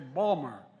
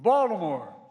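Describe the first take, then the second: First: It is said in a local Baltimore accent. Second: It is said in a standard accent, fully pronounced.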